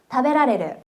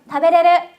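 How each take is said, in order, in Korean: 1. 중간 'ra' 음절은 그대로 남아요. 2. 중간 'ra' 음절은 빠져요. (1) "먹을 수 있다를 타베라레르라고 하거든요" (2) "이 히라가나 라를 빼서 타베레르라고도 많이 얘기를 해요"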